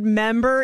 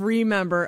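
First: "member" without its first syllable; ex's clipped word. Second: Said in the usual way. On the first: Retold or imitated. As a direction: say remember as just "member". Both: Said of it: "instead of".

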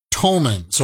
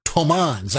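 First: "tomans" stressed on the first syllable, TOH-munz; first guess at tomans. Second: "tomans" with an open second vowel, toh-MAHNZ; second guess at tomans. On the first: Unsure host tries the foreign currency name, "tomans" as TOH-munz. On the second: Unsure host tries the foreign currency name, "tomans" as toh-MAHNZ. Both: Shown as a demonstration. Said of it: "I don't know how you pronounce that".

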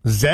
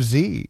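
First: Z pronounced "zed"; Canadian letter name. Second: Z pronounced "zee"; American letter name. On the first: Host showing listeners a Canadianism, Z said as zed. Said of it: "an example of a Canadianism". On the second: Host contrasting with Canadian usage, Z said as zee. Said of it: "just a not Americanism". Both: Shown as a demonstration.

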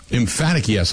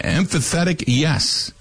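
First: Said in the usual way. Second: "emphatic" garbled into "em-fuh-THET-ic"; mispronounced word. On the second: Real, not acted. Host misreading a listener's email, "emphatic" said as "em-fuh-THET-ic". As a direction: stumble into an extra syllable, "emphatic" as "em-fuh-THET-ic". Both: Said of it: "I should say".

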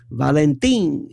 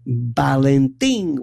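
First: Said in the usual way. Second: Valentin said as Balentin, slow. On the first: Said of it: "or as they called him". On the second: Retold or imitated. The family nickname, slow Balentin with a B. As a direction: swap the V for a B: Balentin. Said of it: "with a B".

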